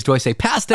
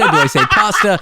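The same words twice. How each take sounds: First: "pasta" with the a of "cat", PAST-uh, laughing; pasta with a flat a. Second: "pasta" with a broad ah, PAHS-tuh, laughing. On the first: Host unsure of own accent, asks co-host, flat-a pasta. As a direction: say "pasta" the American way, flat a as in "pat". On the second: Host compares his two accents to co-host, broad-a pasta. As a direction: say "pasta" the Canadian way, open ah as in "father". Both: Shown as a demonstration. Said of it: "I grew up saying pasta 'cause that's what you say in Canada".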